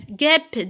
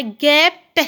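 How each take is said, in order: First: Said in the usual way. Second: "guêpe" slow, in two beats; syllable by syllable. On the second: Shown as a demonstration. Teacher counting syllables for pupils, slow separate beats. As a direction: split "guêpe", sounding the final e. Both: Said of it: "deux syllabes".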